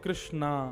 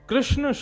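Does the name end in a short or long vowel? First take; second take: long; short. First: The name ends with a long final vowel. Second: The name ends with a short final vowel. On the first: The speaker calls it wrong. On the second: The speaker calls it right.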